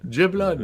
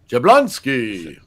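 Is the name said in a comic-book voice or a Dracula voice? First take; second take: Dracula; comic-book. First: It is said in a Dracula voice. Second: It is said in a comic-book announcer voice.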